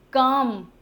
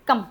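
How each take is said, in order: First: कम with the vowel held long; wrongly lengthened vowel. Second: कम quick and short; short vowel. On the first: Teacher rejects the rule-following form, overlong vowel. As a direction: stretch out कम. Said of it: "कम नहीं". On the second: Teacher gives students the correct exception, short vowel. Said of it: "फिर भी short pronunciations हैं". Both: Shown as a demonstration.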